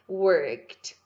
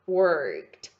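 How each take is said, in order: First: The ending is said with a T sound. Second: The ending is said with a T sound.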